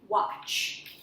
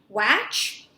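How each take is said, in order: First: The vowel sounds like the 'o' in hot. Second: The vowel sounds like the 'a' in cat. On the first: The speaker calls it right. "the short A is going to sound a little bit more like a short O" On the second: The speaker calls it wrong. "short A says A ... Not quite"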